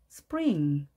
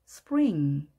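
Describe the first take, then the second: No difference in how they are said.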